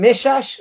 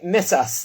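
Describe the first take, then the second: First: The name is said with 'sh' sounds. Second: The name is said with 's' sounds. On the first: "Some people pronounce him as Rabbi Shalom Meshash" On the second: "some people say Messas"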